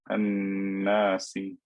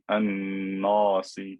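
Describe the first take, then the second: First: The long vowel sounds light and thin. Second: The long vowel sounds heavy and deep. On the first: The speaker calls it right. "the alif will also be skinny in pronunciation" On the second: The speaker calls it wrong. "I cannot say an-nasi because this noon is skinny"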